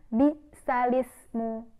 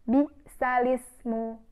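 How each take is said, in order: Both takes have the same delivery.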